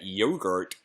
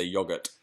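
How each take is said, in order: First: "Yogurt" with a long OH, YOH-gurt; imitated American "Yogurt", YOH-gurt; American pronunciation of yogurt. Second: "yogurt" with a short O, YOG-urt; low-key British "yogurt", YOG-urt; British pronunciation of yogurt. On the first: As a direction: say "Yogurt" the American way, first vowel as in "go". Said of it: "That's how we say it". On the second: Shown as a demonstration. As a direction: say "yogurt" the British way, first vowel as in "dog". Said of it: "I say yogurt".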